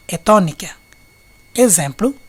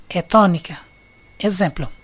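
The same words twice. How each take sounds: The two takes are said the same way.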